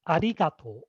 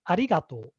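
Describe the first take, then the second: The two takes are said the same way.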